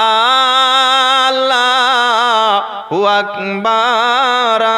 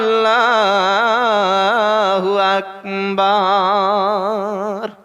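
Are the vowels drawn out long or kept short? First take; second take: long; long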